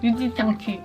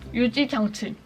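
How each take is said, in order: First: The consonants are slurred and unclear. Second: The consonants are carefully and clearly pronounced. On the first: The speaker calls it wrong. "치읓 이런 발음이 잘 안 돼서 약간 유지장치 이런 식으로 발음이 되거든요" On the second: The speaker calls it right. "잘 신경 써서 발음을 해주면 유지장치 이렇게 할 수 있습니다"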